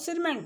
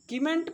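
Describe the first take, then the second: First: The word begins with an s sound. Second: The word begins with a k sound. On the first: The speaker calls it right. "सही जो word होता है" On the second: The speaker calls it wrong. "इसको कीमेंट पढ़ेंगे नहीं"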